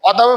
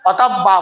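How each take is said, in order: First: The b sound is short, not doubled. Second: The b sound is held and doubled. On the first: The speaker calls it wrong. "অতাবে পড়লে এটা অশুদ্ধ হবে" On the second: The speaker calls it right. "অতাব বা পড়তে হবে"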